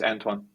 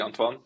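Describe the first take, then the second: First: The name is said with an English pronunciation. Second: The name is said with a Dutch pronunciation. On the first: "English many people call me just Antoine" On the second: "in Dutch it would be Antoine"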